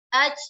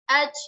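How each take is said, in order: Both takes have the same delivery.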